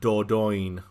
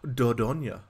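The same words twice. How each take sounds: First: It is said with a British pronunciation. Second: It is said with a French pronunciation. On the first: The speaker calls it wrong. "it would be pronounced as Dordogne" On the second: The speaker calls it right. "in a British speaking place, this game would not be pronounced as Dordogne"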